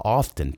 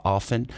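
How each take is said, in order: First: "often" with an audible T, "off-ten"; T sounded in often. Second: "often" with the T dropped, like "offen"; silent T in often. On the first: Teacher showing the British variant, "often" with the T pronounced. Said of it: "Tá certo falar com T também". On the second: Teacher showing the North American variant, "often" with silent T. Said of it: "Tem gente que fala often, principalmente na América do Norte". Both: Shown as a demonstration.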